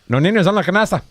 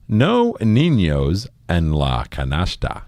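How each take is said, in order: First: It is said at a fast pace. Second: It is said at a slow pace.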